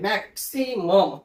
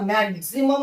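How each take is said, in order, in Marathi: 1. x चा उच्चार s आवाजाने होतो. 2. x चा उच्चार z आवाजाने होतो. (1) "तर हा मॅक्सिमम आहे" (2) "बऱ्याच वेळा मॅक्झिमम वाचला जातो"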